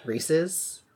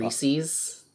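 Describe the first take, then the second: First: "Reese's" said REE-siz, questioning; short i in the end of "Reese's", rising; alternative pronunciation. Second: "Reese's" said REE-seez; long ee in the end of "Reese's"; odd reading pronunciation. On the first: Checking how it is pronounced, "Reese's" as REE-siz, questioning. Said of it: "That's how it's pronounced". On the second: Admitting to reading words strangely, "Reese's" as REE-seez. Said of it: "sometimes I read words very strange". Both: Shown as a demonstration.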